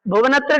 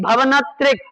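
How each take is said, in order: First: भुवनत्रिक with u after bh, the wrong way; भुवनत्रिक as the mistaken form; wrong vowel bhuvan. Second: भवनत्रिक with a short a after bh, not u; भवनत्रिक as the correct form; correct form bhavan. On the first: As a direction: say भुवनत्रिक with a short u in the first syllable. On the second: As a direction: say भवनत्रिक with a short a in the first syllable. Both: Shown as a demonstration. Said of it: "भुवनत्रिक नहीं बोलना".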